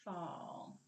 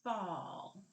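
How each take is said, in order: First: "Fall." said softly, lingering on the f; a quiet echo of the clipped word; soft repeat. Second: "Fall." said whole, ending as the first sound is cut; clipped word. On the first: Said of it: "what did we clip off". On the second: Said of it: "put our fist here and say". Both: Shown as a demonstration.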